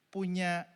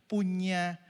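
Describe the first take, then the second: No difference in how they are said.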